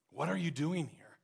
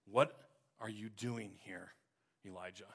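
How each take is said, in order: First: Said in the usual way. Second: Softer, almost fading voice of God; quiet voice of God. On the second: Acted. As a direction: speak as God in a hush, dying away on Elijah. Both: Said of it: "in a voice of God said".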